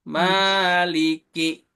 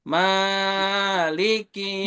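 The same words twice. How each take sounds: First: The first vowel is lengthened moderately, two beats. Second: The first vowel is stretched out far too long. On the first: The speaker calls it right. "Ma-nya itu di ayun" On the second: The speaker calls it wrong. "Jangan kepanjangan"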